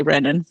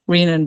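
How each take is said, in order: First: Short e in "Renin", like "wren"; short-e pronunciation. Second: Long ee in "Renin", matching "renal"; long-e pronunciation. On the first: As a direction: say "Renin" as REN-in. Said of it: "they still say". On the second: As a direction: say "Renin" as REE-nin. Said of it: "because of renal extracts". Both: Shown as a demonstration.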